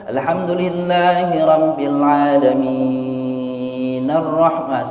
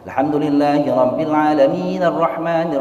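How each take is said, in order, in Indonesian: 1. Vokal pada 'alamin' dibaca panjang. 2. Vokal pada 'alamin' dibaca pendek. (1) "kalau dibaca mad adli sukun ... salah" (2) "itu mad tabi'i"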